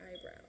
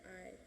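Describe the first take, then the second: First: Eyebrow run together as one casual word; habitual pronunciation. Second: Eyebrow split slowly into eye and brow; corrected pronunciation. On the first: Vlogger mocking her own habit, eyebrow slurred together. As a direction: say eyebrow quickly, its ending slurred. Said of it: "Why do I always say eyebrow?". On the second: Vlogger correcting herself, eyebrow in two drawn-out parts. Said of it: "It's not an eyebrow". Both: Shown as a demonstration.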